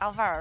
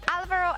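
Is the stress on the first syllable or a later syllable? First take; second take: later syllable; first syllable. First: The stress falls on a later syllable. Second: The stress falls on the first syllable. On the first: The speaker calls it wrong. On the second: The speaker calls it right. "normally an accent on the A"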